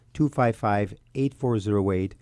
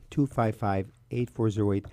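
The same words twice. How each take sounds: The two takes are said the same way.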